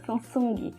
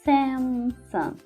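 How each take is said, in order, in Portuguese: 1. É dita do jeito português, com som de G. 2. É dita do jeito inglês, sem som de G. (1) "a gente fala Samsung ainda com o somzinho do G" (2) "na língua inglesa a gente tira esse somzinho do G"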